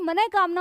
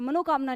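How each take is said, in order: First: The second syllable is said as 'ne'. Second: The second syllable is said as 'no'. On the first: The speaker calls it right. "यानी मने कामना होता है" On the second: The speaker calls it wrong. "मनोकामना नहीं होता"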